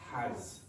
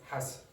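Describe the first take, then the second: First: The vowel is said long. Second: The vowel is said short. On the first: The speaker calls it right. "Why is that vowel sound long?" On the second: The speaker calls it wrong. "why is it not has?"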